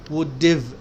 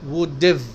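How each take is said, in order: No difference in how they are said.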